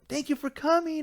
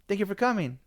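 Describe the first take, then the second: First: It sounds warm, lively and enthusiastic. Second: It sounds polite but flat and lukewarm. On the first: The greeter now recognizes and values the visitor. "So the tone changed instantly" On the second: The greeter does not recognize the visitor. "I didn't feel the connection"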